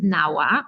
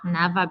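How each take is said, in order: First: The middle consonant is a W sound. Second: The middle consonant is a V sound. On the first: "probably you are gonna pronounce it NAWA" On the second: "because W in Polish we read as V"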